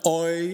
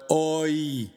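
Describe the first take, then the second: First: The vowels glide together into one sound. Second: The vowels are said as two separate sounds. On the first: The speaker calls it wrong. "Not OI as in boy" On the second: The speaker calls it right. "two distinct vowels"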